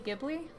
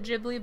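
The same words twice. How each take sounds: First: The name begins with a hard G sound. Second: The name begins with a J sound. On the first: This is the original pronunciation of the word. "but it's actually" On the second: This is how it is said in Japan. "Japan says it"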